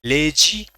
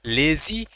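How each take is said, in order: First: लेजी mispronounced as "lay-jee"; wrong j for z. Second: लेजी as "lay-zee", rising at the end; correct z sound. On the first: Teacher warning students of the error, लेजी as "lay-jee". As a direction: say लेजी with j replacing the z. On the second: Teacher drilling students, लेजी with a z, "lay-zee". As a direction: say लेजी with a z, not a j. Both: Shown as a demonstration. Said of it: "not गलत हो जाएगा".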